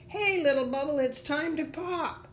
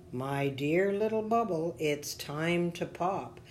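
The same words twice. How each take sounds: First: High-pitched taunting call, loud on the first word; leaves crying out. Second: Lightly voiced mysterious figure, slowing at the end; a hint of a deep, measured voice. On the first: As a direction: call out in a high storybook creature voice. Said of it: "They cried out". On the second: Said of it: "heard a deep voice say". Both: A narrator's reading.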